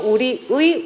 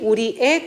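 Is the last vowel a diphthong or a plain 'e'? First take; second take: diphthong; plain e. First: The last vowel is the diphthong 'ui'. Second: The last vowel is a plain 'e'. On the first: "원칙으로는 이중모음 의" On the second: "에로 발음하는 것도 허용한다"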